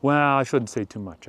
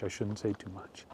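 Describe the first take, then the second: First: Said in the usual way. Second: Repeats it much softer, like a secret; hushed aside. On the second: Acted. A host hinting at gossip, hushed aside. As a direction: drop to a conspiratorial hush.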